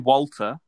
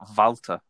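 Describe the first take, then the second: First: The name is said with an English pronunciation. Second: The name is said with a German pronunciation. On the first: "But we say Walter" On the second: "You say Volta"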